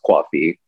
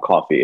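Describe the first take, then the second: First: Coffee is said in a New Jersey accent. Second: Coffee is said in a general American accent. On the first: "It is coffee" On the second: "coffee is not coffee"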